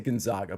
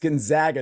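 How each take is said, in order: First: The name has its older, formerly used pronunciation. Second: The name has its newer, currently accepted pronunciation. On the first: The speaker calls it wrong. "I used to say Gonzaga" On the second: The speaker calls it right. "I understand it's Gonzaga now"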